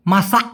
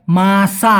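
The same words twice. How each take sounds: First: "মাসা" short, stopped at the end by a swallowed k; final K cut short. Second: "মাসা" drawn out, ending on an open long aa; long open final A. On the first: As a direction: close the last vowel of "মাসা" abruptly on an unreleased k. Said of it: "লাস্টে ক আছে". ("মাসা" শেষে চাপা ক দিয়ে ছোট উচ্চারণ) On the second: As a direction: let the last vowel of "মাসা" ring open, no closing k. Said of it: "লাস্টে আ উচ্চারণ হবে". ("মাসা" শেষে লম্বা খোলা আ উচ্চারণ) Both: Shown as a demonstration.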